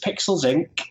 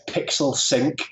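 First: The s sound ends the first word. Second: The s sound starts the second word. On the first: "my business, Pixels Inc" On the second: "or you could pronounce it Pixel Sync"

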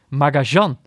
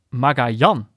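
First: The name has an sh-like middle sound. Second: The name has a y-like middle sound. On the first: "mensen die het specifiek op zijn Argentijns uitspreken" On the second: "In het Spaans natuurlijk uitgesproken wordt als Magajan. Met de klemtoon op de laatste lettergreep"

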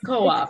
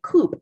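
First: It is said as two separate syllables. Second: It is said as one syllable, like chicken coop. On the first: The speaker calls it right. "But it's co-op" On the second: The speaker calls it wrong. "I used to pronounce it coop. And I was like, does that mean that homeschoolers need a chicken coop?"

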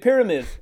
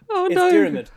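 First: The word begins with a clear P sound. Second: The word begins without any P sound. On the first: The speaker calls it wrong. "he didn't drop the P" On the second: The speaker calls it right. "You take the P out"

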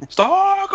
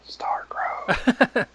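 First: It is said loudly and forcefully. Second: It is said quietly, almost whispered.

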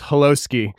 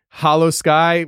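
First: It is run together as one word. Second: It is said as two separate words. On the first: The speaker calls it wrong. "reading everything as one word, just boom" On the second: The speaker calls it right. "I actually spelled out hollow and then sky"

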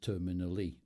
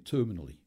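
First: The stress falls on a later syllable. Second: The stress falls on the first syllable. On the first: This is the way the word is bent to fit the song. "in order to get it fit, he says terminally" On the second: This is the everyday way to say the word. "we'd all say terminally"

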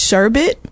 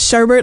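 First: The second syllable has no r sound. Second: The second syllable has an r sound. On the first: The speaker calls it right. "Somebody told me it's sherbet. There's no like second R in sherbet" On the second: The speaker calls it wrong. "I've been saying sherbet literally all my life"

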